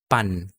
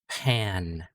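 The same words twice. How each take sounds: First: The P is released without a puff of air. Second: The P is released with a puff of air. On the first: The speaker calls it wrong. "So hindi pan" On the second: The speaker calls it right. "nagkakaroon siya ng ng H sound"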